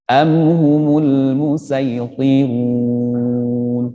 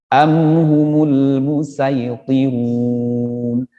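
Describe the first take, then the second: The two takes are said the same way.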